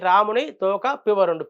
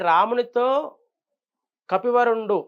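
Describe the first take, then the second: First: The words split after ramuni, then toka, pivarundu. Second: The words split after ramunito, before kapivarundu. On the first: Rama's tail, someone called pivarundu. The speaker calls it wrong. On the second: The monkey chief spoke to Rama. The speaker calls it right.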